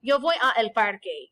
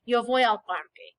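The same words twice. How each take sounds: First: Yo voy a el parque with a and el kept separate; awkward break. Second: Al parque blended into one smooth word al; smooth contraction. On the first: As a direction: say a el as two separate words with a slight break. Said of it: "because a l sounds awkward". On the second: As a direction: run a and el together as al without a break. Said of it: "It sounds so much more smooth". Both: Shown as a demonstration.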